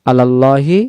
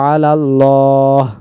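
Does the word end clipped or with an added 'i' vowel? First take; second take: added vowel; clipped. First: The word ends in 'i', running into the next. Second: The word ends clipped, followed by a breath break. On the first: The phrase continues without stopping. "যদি একবারে বললে" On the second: The phrase is paused here. "যদি দমটা ছেড়ে দেই তাহলে এভাবে বলবো"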